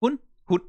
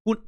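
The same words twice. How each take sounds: First: "Hun" cut short with a hard glottal stop, higher; exaggerated glottal stop. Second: "Hun" with the vowel rolled long; long Danish vowel. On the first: Streamer demoing stød to chat, exaggerated glottal catch. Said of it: "And I'm exaggerating it". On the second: Streamer teaching chat Danish, long rolled vowel. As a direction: let the vowel of "Hun" roll. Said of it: "That's she". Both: Shown as a demonstration.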